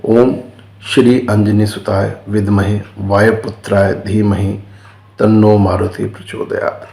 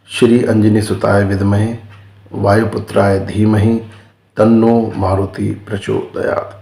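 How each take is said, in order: First: Chanted, intone it steadily like a prayer; chanted mantra. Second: Mantra spoken phrase by phrase, with pauses between; slow dictation. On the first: Teacher reciting the mantra for viewers, in an even chant. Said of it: "आपको ग्यारह बार गायत्री कर देनी है". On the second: Teacher repeating the mantra so viewers can learn it, slowly and phrase by phrase. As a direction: slowly spell it out so they can follow. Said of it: "ये हनुमान जी की गायत्री है". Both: Shown as a demonstration.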